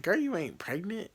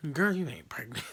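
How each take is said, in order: First: Mock incredulous. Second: Dismissive mom. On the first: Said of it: "She's like". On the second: Retold or imitated. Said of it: "And she was like".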